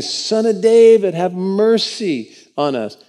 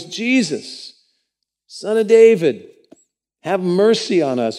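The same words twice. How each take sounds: First: Slow, pleading cry out for mercy. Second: High, loud calling out for mercy; loud cry. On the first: Blind men begging Jesus on the road, loud pleading cry. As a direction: call out high and slow, begging. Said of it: "crying out and saying". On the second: Blind men shouting after Jesus, loud desperate cry. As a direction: cry out to be heard across the road. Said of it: "they cry out with a loud voice". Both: A narrator's reading.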